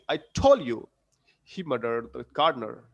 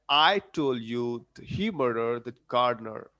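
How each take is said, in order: First: The stress is on the word told. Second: The stress is on the word I. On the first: "I have put stressed on stress on told" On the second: "I'm putting stress on I in the beginning"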